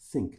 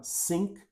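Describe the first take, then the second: First: Think, clear th; th sound. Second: Sink, tongue behind the teeth; s sound. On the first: Teacher shows the th take of the pair. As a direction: think with tongue between teeth. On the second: Teacher shows the s take of the pair. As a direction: Sink with a plain s, lips apart. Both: Shown as a demonstration. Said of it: "O único som diferente é o S e o T H".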